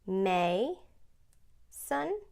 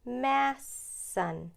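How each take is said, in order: First: The first vowel is long, ending the syllable. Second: The first vowel is short, closed by s. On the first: The speaker calls it right. "We can try the word" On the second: The speaker calls it wrong.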